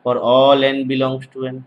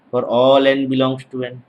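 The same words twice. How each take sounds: The two takes are said the same way.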